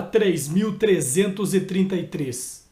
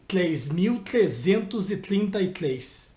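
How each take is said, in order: First: Said in the usual way. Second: "três mil trezentos e trinta e três" slowly, each "tr" slurred toward "tl"; mispronounced R. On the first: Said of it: "Era complicado. Saía assim". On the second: Shown as a demonstration. Host showing how the tricky number used to come out, R slurred into L. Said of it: "Saía assim".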